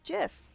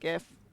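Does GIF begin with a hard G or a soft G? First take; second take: soft G; hard G. First: It begins with a soft J sound. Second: It begins with a hard G sound. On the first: It follows the inventor's pronunciation. The speaker calls it wrong. "the guy who invented that says it's GIF, and he's clearly wrong" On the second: The G stands for graphical. The speaker calls it right. "I always said GIF because of the graphical"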